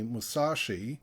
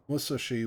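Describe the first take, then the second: First: One syllable is stressed more than others. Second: All syllables carry equal, even stress. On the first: The speaker calls it wrong. "most English speakers tend to say musashi" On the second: The speaker calls it right. "basically there's no stress on any syllable"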